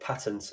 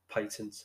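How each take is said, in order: First: It uses a pronunciation other people use. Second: It uses the speaker's own Birmingham pronunciation. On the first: "as some people pronounce it" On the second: "I'm from Birmingham, so patent"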